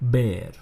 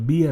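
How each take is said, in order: First: The vowel sounds like the one in 'hair'. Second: The vowel sounds like the one in 'beer'. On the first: It names the animal. The speaker calls it right. "અને શું કહેશો બેર" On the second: It sounds like the word for the drink. The speaker calls it wrong. "બિયર નહીં કહેતા"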